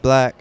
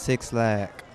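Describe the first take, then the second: First: The name is said like the word black. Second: The name is said as six plus lack. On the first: The speaker calls it right. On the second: The speaker calls it wrong. "highly mispronounced as Six Lack"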